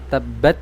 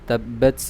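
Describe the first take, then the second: First: The final t has no audible breath release. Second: The final t has an audible breath release. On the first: The speaker calls it wrong. "bukan tabbat" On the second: The speaker calls it right. "jadi ada aliran nafas yang keluar"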